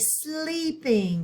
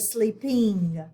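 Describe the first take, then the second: First: The stress is on the first syllable. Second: The stress is on the second syllable. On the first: The speaker calls it right. "we're going to accent the first syllable because we say sleeping" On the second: The speaker calls it wrong. "We don't say sleeping"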